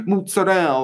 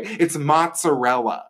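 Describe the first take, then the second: First: Mozzarella said the Italian American way, clipped to mutzadell; mock Italian pronunciation. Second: Mozzarella said plainly in standard English with every syllable, mot-suh-REL-uh; standard pronunciation. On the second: Shown as a demonstration. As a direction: mozzarella slow and correct, all four syllables. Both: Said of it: "Why are you pronouncing it that way?".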